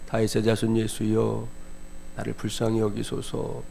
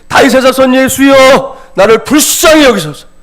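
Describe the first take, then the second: First: It is said quietly, without urgency. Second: It is cried out loudly and urgently.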